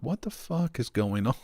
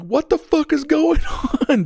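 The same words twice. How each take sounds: First: Softer, higher retold bewilderment breaking into laughter; baffled, laughing retelling; bewildered laugh. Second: High, loud retold panic, breaking into a laugh; acted-out alarmed shouting; alarmed yell. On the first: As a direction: ask it under your voice, laughing at the end. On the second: Retells his alarmed shout.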